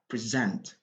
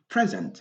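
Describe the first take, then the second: First: The stress is on the second syllable. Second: The stress is on the first syllable. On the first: It is a verb meaning to present something. "l'accent tonique, c'est toujours donc vers la fin, c'est-à-dire la dernière syllabe" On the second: It is a noun or adjective, not a verb. "quand on déplace l'accent tonique seulement, on va dire present et ça ne va plus être un verbe"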